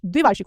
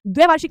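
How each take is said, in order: First: द्विवार्षिक with "dvi" at the start; correct form. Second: द्वैवार्षिक with "dvai" at the start; wrong form. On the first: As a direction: say द्विवार्षिक as "dvi-vaar-shik". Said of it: "द्विवार्षिक होता है". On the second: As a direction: say द्वैवार्षिक as "dvai-vaar-shik", higher. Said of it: "द्वैवार्षिक नहीं होता". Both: Shown as a demonstration.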